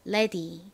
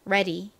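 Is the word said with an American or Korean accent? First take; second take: Korean; American. First: It is said with a Korean-style vowel. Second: It is said with an American-style vowel. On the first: "한국식으로 발음해보면 ready가 됩니다" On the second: "미국식으로 발음하면요"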